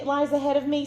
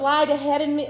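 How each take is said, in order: First: Fixes the verb, saying "lies ahead of me" cleanly; corrected to lies. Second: Misspoken lied. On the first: Preacher corrects herself before the congregation, plain restated "lies". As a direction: restate the phrase with the right word "lies". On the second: Preacher misspeaks to the congregation, saying "lied" by mistake. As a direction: slip on the verb, saying "lied ahead of me" before catching it. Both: Real, not acted.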